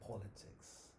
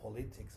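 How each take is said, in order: First: The word is pronounced the English way. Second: The word is pronounced the Spanish way. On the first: The speaker calls it right. "but it's politics" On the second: The speaker calls it wrong. "it's not politics"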